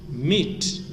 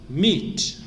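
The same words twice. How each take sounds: Both takes have the same delivery.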